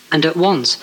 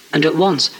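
Both takes have the same delivery.

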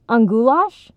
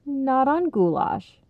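First: Higher, louder rising question; rising, surprised interruption; interrupting question. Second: Slow, higher, gentle tone; slow, kindly correction. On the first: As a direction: cut in with an eager question. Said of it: "Jake interrupted". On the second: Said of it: "Ronnie's dad corrected gently". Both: A narrator's reading.

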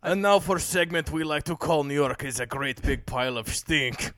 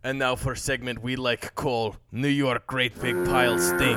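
First: Put-on thick Russian accent. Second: Put-on Russian accent without articles; clipped Russian accent, drop the articles. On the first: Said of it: "We need a new accent". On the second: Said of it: "no articles, no A's, no the".

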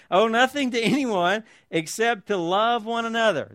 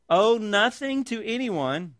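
First: "nothing" punched, falling tune; stress on nothing. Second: "Owe" stretched and leaned on, slowly; stress on owe. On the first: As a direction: hit "nothing" hardest, then let it fall. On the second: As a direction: land hard on "Owe", the rest slow. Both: Shown as a demonstration. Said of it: "This should have emphasis over and over again".

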